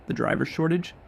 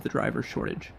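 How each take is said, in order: First: "The driver shortage?" rising high on "shortage" like a question; upward inflection. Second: Said in the usual way. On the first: Shown as a demonstration. Mirroring the supplier's words back, rising question. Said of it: "You do it with an upward inflection, like a question". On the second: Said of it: "You do it with an upward inflection".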